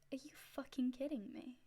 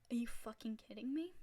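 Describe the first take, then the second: First: It is said in an intimidating, threatening way. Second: It is said in a mild, unthreatening way.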